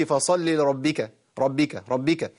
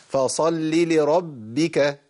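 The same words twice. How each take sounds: First: فصل لربك with a single quick ب; light undoubled ب in ربك; only one ba. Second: Slow فصل لربك, sound cut on the first ب; measured لربك with a full double ب; firm doubled ba. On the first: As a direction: skip the doubling in ربك. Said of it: "كده جبت بقى واحدة". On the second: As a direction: close and hold ب in لربك, then release. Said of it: "لازم أقطع صوت في الباء الأولى". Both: Shown as a demonstration.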